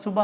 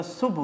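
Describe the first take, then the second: First: صبح with an open "a" on the end; colloquial mispronunciation. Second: صبح without any vowel after the b; correct pronunciation. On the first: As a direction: say صبح as two syllables, "su-ba". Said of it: "لفظ صبح نہیں ہوتا". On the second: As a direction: say صبح as one syllable, "subh". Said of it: "بے اور ہے دونوں سائلنٹ ہیں". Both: Shown as a demonstration.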